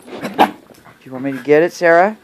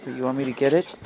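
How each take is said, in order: First: Louder call to the dog, rising on Sarah. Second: Said in the usual way. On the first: Real, not acted. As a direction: call her name across the room.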